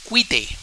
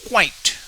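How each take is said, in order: First: The word is said with two syllables. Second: The word is said with one syllable. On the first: The speaker calls it wrong. "and that would be two syllables. But that is not the correct pronunciation" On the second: The speaker calls it right. "so we have quite"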